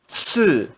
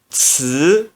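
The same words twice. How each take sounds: First: The pitch falls sharply from high. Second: The pitch rises from middle to high. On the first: "E no quarto tom" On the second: "No segundo tom, se pronuncia ts"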